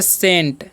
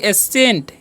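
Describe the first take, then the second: First: The word begins directly with an s sound. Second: The word begins with a vowel before s. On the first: The speaker calls it right. "इसे हम पढ़ते हैं सेंट" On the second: The speaker calls it wrong. "एसेंट पढ़ेंगे नहीं"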